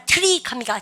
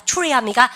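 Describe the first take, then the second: First: "트리" with a plain "teu" before the r; Koreanized TR. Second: "트리" said as choo-ree; English TR sound. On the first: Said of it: "T하고 R이 있으면". ("트리"를 글자대로 '트리') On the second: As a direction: turn the 트 of "트리" into choo. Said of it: "티알은 추추추". ("트리"를 '추리'처럼 발음) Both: Shown as a demonstration.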